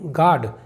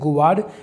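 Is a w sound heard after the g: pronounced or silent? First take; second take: silent; pronounced. First: No w sound follows the g. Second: A w sound follows the g. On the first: The speaker calls it right. "इसे पढ़ेंगे हम गार्ड" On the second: The speaker calls it wrong. "इसे गुवार्ड या किसी और तरह से नहीं पढ़ेंगे"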